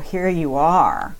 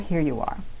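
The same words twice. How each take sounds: First: The tone sounds annoyed and judgmental. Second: The tone sounds calm and accepting. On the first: The thought is unwelcome and resented. The speaker calls it wrong. "instead of saying" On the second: The thought is accepted without judgment. The speaker calls it right. "See the difference in the tone there? Where I'm accepting"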